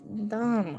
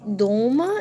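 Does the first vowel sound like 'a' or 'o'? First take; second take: a; o. First: The first vowel is reduced to an 'a' sound. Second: The first vowel is a full 'o' sound. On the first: The speaker calls it right. "it's Dama, because the, um, the stress is on the A at the end" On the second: The speaker calls it wrong. "It's not Doma"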